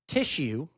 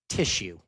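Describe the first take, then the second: First: The word is said with an odd pitch pattern. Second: The word is said with a natural pitch pattern. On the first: It may point the listener toward the wrong idea. The speaker calls it wrong. "I had a bad inflection on that" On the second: It points the listener toward the intended idea. The speaker calls it right. "I had to correct where I was sending you"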